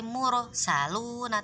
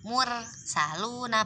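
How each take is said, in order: First: The r sound is thick, lips rounded. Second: The r sound is thin, lips unrounded. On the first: The speaker calls it right. "tapi mursaluna, tetap moncong" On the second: The speaker calls it wrong. "Bukan dibaca mursaluna"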